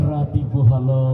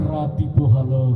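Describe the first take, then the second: No difference in how they are said.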